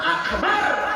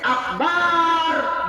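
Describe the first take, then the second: First: The final syllable bar is kept short. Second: The final syllable bar is drawn out long. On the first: It means great. The speaker calls it right. "Lamun akbar besar" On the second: It means a big drum. The speaker calls it wrong. "Tapi akbar bedug gede"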